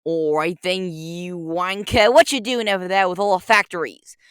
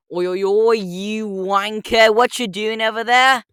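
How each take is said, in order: First: Put-on British accent, taunting the Lorax. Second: Slow, drawn-out British heckling; British accent, calling out the Lorax. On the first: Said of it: "We must unleash the British Walrus Detective". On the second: Acted. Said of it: "British Walrus Detective".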